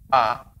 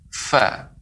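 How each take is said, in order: First: The first sound is made with both lips. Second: The first sound is made with lip and teeth. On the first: The speaker calls it wrong. "ini menggunakan dengan dua bibir, dan ini keliru" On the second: The speaker calls it right. "dengan bibir bawah bagian dalam dengan menempel dua gigi seri atas"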